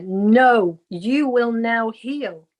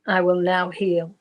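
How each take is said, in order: First: A louder, insistent "No," then a slow "you will now heal"; the unseen voice pressing its order, slow; loud voice in the ear. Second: Said in the usual way. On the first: Retold or imitated. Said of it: "it went so loud in my ear". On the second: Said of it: "I'll do as I'm told".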